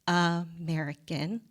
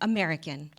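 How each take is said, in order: First: The word is drawn out slowly. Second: The word is run together quickly. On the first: "first stretching it out" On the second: "then running it together"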